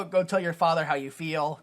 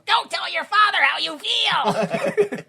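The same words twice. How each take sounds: First: Said in the usual way. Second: High, very slow, hammed-up delivery; hammed-up line. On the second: Shown as a demonstration. Repeating the movie line, high and hammed-up. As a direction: stretch it out like a melodramatic actor.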